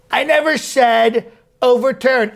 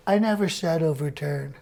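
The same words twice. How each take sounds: First: Indignant denial hitting never; stress on never. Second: Said in the usual way. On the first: Acted. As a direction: lean hard on never to deny it. Denial repeated, second insistent.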